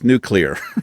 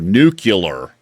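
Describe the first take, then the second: First: The word ends with a 'clear' sound. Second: The word ends with a 'cular' sound. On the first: The speaker calls it right. "It's nuclear" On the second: The speaker calls it wrong. "I was pronouncing it like N U C U L A R"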